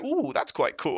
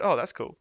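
First: It is said in a less manly voice. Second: It is said in a more manly voice.

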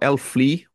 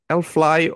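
First: The name is pronounced the Norwegian way. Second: The name is pronounced the English way.

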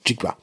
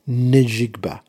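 First: The name begins without any N sound. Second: The name begins with an audible N sound. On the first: "I don't know if they pronounce the N" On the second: "I don't know if they pronounce the N"

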